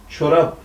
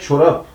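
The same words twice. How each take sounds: First: The word ends with a soft b sound. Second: The word ends with a hard p sound. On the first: The speaker calls it right. "Kelimenin Osmanlı Türkçesindeki söylenişi çorap şeklindedir" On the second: The speaker calls it wrong. "BP değişimi kuralıyla bu kelime çorap yapılmış, telaffuz setleşmiştir"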